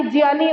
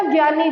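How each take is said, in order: First: "ज्ञानी" said as jiyaani, with j; Sanskrit pronunciation. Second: "ज्ञानी" said as gyaani, hard g; common mispronunciation. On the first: Teacher correcting the everyday habit, "ज्ञानी" as jiyaani. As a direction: begin "ज्ञानी" with j gliding into yaani. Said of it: "इसका सही pronunciation Sanskrit में". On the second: Teacher quoting everyday habit, "ज्ञानी" as gyaani. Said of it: "हम जो ये ज्ञा ज्ञा करते रहते हैं". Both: Shown as a demonstration.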